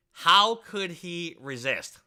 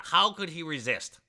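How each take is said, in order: First: "how could he resist?" drawn out slowly, each word weighted; slow emphatic. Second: Said in the usual way. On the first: Real, not acted. Streamer arguing his point to chat, slowing "how could he resist?" right down. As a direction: lean on "how" and stretch the whole question.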